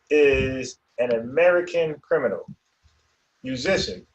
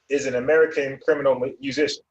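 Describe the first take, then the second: First: There is a pause after the word criminal. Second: It runs on quickly with no pause after criminal. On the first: It lists separate roles: criminal, musician, and writer. The speaker calls it right. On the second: It describes a musician who is a criminal. The speaker calls it wrong.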